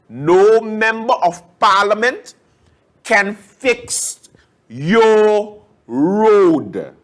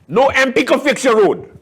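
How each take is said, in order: First: It is said slowly and deliberately. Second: It is said at normal speed.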